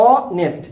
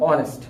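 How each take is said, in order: First: "honest" broken as অ, then nest; stretched first syllable in "honest", then nest; split in two syllables. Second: Said in the usual way. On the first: Shown as a demonstration. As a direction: slowly sound out "honest" in two beats. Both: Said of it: "দেখো এটা দুই syllable বিশিষ্ট".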